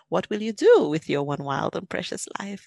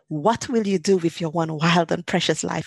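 First: It is said in a gentle, relaxed tone. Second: It is said in an anxious, pressured tone.

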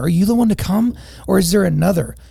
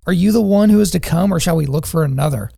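First: It is asked in an exasperated, desperate tone. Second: It is asked in a calm, plain tone.

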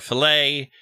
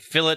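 First: The word ends with an open ay vowel. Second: The word ends with a hard T sound. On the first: This is the French way of saying it. "They will never say EA" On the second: This is how people in the United Kingdom say it. "They say fillet for a fillet"

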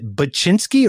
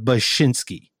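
First: The middle consonant is a hard 'ch' sound. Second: The middle consonant is a soft 'sh' sound. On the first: "the hard CH" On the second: "the soft SH"

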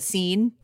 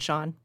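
First: The name is said like the word 'seen'. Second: The name is said like the word 'shawn'. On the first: The speaker calls it wrong. "She mispronounced her supposed husband's name" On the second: The speaker calls it right. "It should have been Sean"

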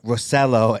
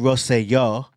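First: The name is said with American pronunciation. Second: The name is said with non-American pronunciation.

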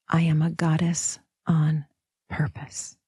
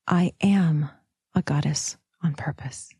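First: The stress is on "purpose". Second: The stress is on "am".

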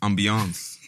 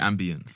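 First: The word is pronounced the French way. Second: The word is pronounced the posh English way. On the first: The speaker calls it right. "I'm talking ambiance, bro. We're in France" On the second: The speaker calls it wrong. "Don't say ambience. Those are the posh English people"

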